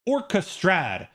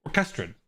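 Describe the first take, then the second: First: Slow "Orchestrad", stressing both OR and STRAD; two stresses. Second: "orchestrad" as or-KES-trud, last syllable weak; low "orchestrad", stressed on KES; natural English stress. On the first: Streamer teaching stress patterns, "Orchestrad" as OR-kuh-STRAD. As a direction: hit first and last syllable of "Orchestrad". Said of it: "we're stressing two syllables there". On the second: Streamer testing English stress, "orchestrad" as or-KES-trud. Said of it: "is the third to last syllable". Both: Shown as a demonstration.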